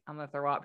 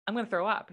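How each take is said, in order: First: Lower, softer, sick voice; mock nauseous murmur; queasy. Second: Said in the usual way. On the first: Pregnant wife telling husband she'll vomit, queasy and low.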